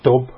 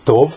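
First: The word ends with a b sound. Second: The word ends with a v sound. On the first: The speaker calls it wrong. "héberül nem tob" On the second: The speaker calls it right. "hanem tov"

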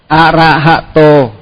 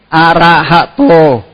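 Both takes have the same delivery.

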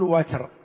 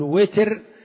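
First: The first vowel is an 'a' sound. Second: The first vowel is an 'i' sound. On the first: "أو فتحها" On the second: "بكسر الواو"

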